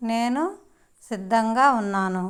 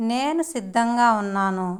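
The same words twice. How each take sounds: First: నేను rising, pause, then సిద్ధంగా ఉన్నాను; split into parts. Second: Said in the usual way. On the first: Shown as a demonstration. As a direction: set నేను apart before సిద్ధంగా ఉన్నాను. Teacher models phrase in parts. (నేను తర్వాత ఆగి మిగతాది చెప్పడం)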